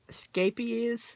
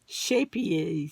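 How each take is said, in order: First: It is said with a Dutch pronunciation. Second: It is said with an American pronunciation. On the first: "this is a Dutch brand and it's pronounced scapies" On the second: "Americans, we normally pronounce it shapies"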